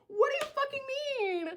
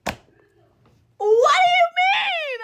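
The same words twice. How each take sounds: First: Very high, soft squeal; held-back high wail of disbelief; strangled disbelief. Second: Very high, drawn-out wailing shriek; loud, slow, high-pitched wail; shocked scream. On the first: Same reaction, strangled and quiet. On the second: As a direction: scream it in disbelief, stretched long. Screaming reaction to shocking news. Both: Retold or imitated.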